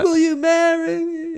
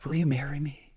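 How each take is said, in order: First: It is said loudly and forcefully. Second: It is said quietly and subdued.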